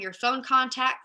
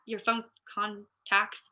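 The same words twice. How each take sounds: First: Said in the usual way. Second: "phone contacts" slowed right down, broken up; careful self-correction. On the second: Real, not acted. Speaker fixing a fumbled word, "phone contacts" said slowly. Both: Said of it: "yep, can't talk".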